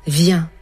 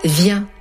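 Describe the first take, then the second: No difference in how they are said.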